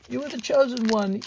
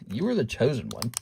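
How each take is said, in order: First: It is said with feeling and emotion. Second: It is said flatly, with no enthusiasm.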